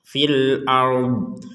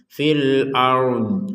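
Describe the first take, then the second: Both takes have the same delivery.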